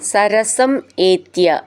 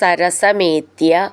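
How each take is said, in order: First: The two words are said separately. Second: The two words are joined into one.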